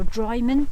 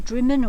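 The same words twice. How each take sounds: First: "Drymen" with first syllable like "dry"; long-i pronunciation. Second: "Drimmen" with a short i, like "trim"; short-i pronunciation. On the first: Vlogger offering the other village name, long-i "Drymen". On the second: Vlogger unsure of the village name, short-i "Drimmen". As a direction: say "Drimmen" with first syllable "drim". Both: Shown as a demonstration. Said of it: "whatever it's called".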